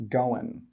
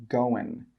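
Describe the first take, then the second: Both takes have the same delivery.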